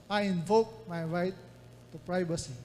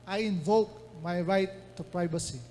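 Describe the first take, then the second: Both takes have the same delivery.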